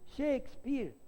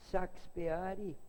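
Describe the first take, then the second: First: Shakespeare much higher, English SHAKES-peer; English pronunciation. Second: Shakespeare slowly as shah-kees-peh-AH-ree; Shakespeare unhurried, Portuguese style; Portuguese pronunciation. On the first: The heckler insists again, Shakespeare in English, much higher. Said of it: "o sujeito". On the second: Rui repeats it calmly, Shakespeare the Portuguese way. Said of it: "ele escutou e falou assim". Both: Retold or imitated.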